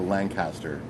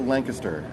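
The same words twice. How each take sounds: First: It is pronounced differently from the local way. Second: It is pronounced the way locals say it. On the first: "as opposed to" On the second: "isn't that how locals say it"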